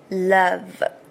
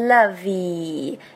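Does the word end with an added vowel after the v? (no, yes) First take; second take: no; yes. First: The word ends cleanly on the v sound. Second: An extra vowel is added after the final v. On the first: The speaker calls it right. "只要发v 的v 就可以了" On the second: The speaker calls it wrong. "要注意不是lovey"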